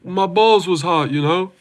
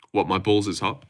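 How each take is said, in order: First: Higher-pitched comic sidekick impression; imitated comic-relief catchphrase, pitched up; Derek Lewis. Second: Said in the usual way. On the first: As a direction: put on an American fighter's voice for a gag. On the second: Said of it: "Please say it in your accent".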